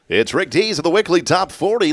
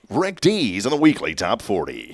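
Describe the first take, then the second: First: It is said in his normal speaking voice. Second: It is said in a put-on radio-announcer voice.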